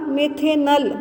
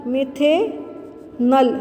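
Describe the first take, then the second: First: Said in the usual way. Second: मिथेनल drawn out very slowly, each syllable clear, the final अल held; slow spelled-out naming. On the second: Shown as a demonstration. Teacher to students, showing the अल sound in मिथेनल, very slowly. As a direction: say मिथेनल syllable by syllable, stretching the अल ending. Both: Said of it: "इसमें अल की sound आती है".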